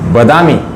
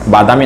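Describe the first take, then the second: First: The first vowel is short. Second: The first vowel is long. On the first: The speaker calls it right. "मराठीमध्ये त्याला बदामी असं म्हणायचं" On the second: The speaker calls it wrong. "बादामी नाही"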